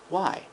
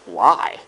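First: It is asked in a soft, curious tone. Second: It is asked in a sharp, accusing tone. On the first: The speaker genuinely wants to understand. "and the other is seeking understanding" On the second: The speaker is attacking the listener. "One of them is an attack"

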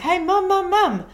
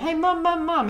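First: It is said more loudly. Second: It is said fairly softly.

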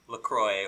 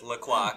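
First: The word is pronounced in a plain, everyday way. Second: The word is pronounced in a fancy, posh way.

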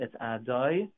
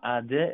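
First: The second syllable has a full 'o' vowel. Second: The second syllable has a short reduced vowel. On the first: The speaker calls it right. "it's Ah, Doi, and then Noi" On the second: The speaker calls it wrong. "It's not a Shva"

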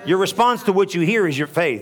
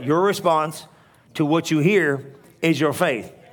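First: It is said at a normal pace. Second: It is said very slowly.

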